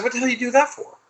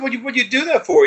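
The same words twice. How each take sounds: First: Much higher, strained put-on outrage; mock outraged yell. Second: Much higher, louder put-on outrage; mock outraged yell. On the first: Scolding his energy for knocking out the power, high mock yell. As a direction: squeal it up high like a cartoon tantrum. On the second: Scolding his energy again, high mock yell. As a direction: screech the question up high, hammed-up. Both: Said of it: "And I said".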